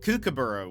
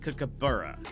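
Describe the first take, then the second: First: The 'bur' syllable is not stressed. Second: The 'bur' syllable is stressed. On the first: The speaker calls it wrong. "I'll say it how I said it" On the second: The speaker calls it right. "there's an emphasis on the B, on the like buh sound"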